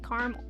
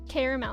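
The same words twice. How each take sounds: First: The word is said with two syllables. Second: The word is said with three syllables. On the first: This is the speaker's own way of saying it. "I say caramel" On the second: This is the brother's way of saying it. "you pronounce it caramel"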